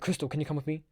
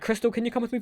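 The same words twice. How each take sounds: First: It is said in a grave, serious way. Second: It is said in a light, casual way. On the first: The speaker calls it right. "I made it sound so seriously" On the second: The speaker calls it wrong. "I didn't say it like that"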